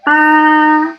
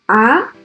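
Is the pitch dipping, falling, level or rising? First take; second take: level; rising. First: The pitch stays high and level. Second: The pitch rises from low to high. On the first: "horizontal, like this" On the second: "The second tone is a rising tone"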